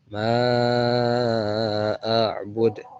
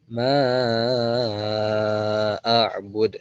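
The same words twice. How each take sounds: First: The vowel of ma is held four counts. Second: The vowel of ma is held five counts. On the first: "berarti empat harokat" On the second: "berarti lima harokat"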